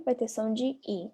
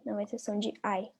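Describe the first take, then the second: First: "I" said as a pure "ee" sound. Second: Final "I" said like English "eye". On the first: Teacher explaining the sound in "during", "I" said as "ee". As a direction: pronounce "I" like the vowel in "see". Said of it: "I vai ter som de I". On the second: Teacher warning of the wrong sound, "I" said as "ai". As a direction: pronounce "I" as "ai", the sound to avoid. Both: Shown as a demonstration.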